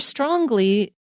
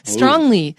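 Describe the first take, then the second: First: A hard G sound follows the ng. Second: No hard G sound follows the ng. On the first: The speaker calls it wrong. "I got the Long Island G in there. That's a Long Island accent" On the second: The speaker calls it right. "You don't say the G"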